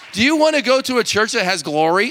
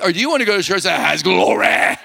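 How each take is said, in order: First: Glory is said in a plain, everyday way. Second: Glory is said in a drawn-out preacher style.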